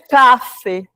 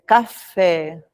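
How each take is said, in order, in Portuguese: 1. A tônica está na primeira sílaba. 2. A tônica está na última sílaba. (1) "não é café" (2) "Oxítona"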